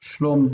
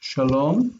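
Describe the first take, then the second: First: The first vowel is dropped, giving 'shlom'. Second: The first syllable keeps its full 'a' vowel. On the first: The word is bound to the following noun. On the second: The word stands alone.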